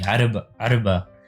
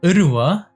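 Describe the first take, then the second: First: The word has a b sound in the middle. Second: The word has a w sound in the middle. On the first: This is the original form. "it's actually arba arba with the ain and with the bet" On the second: This is the speaker's dialect form. "in my dialect here, for example, we say urwa"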